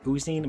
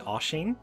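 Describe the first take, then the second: First: The middle consonant is a plain s sound. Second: The middle consonant is an sh sound. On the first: The speaker calls it wrong. "which might look like Oosine" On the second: The speaker calls it right. "but it is actually Oshin"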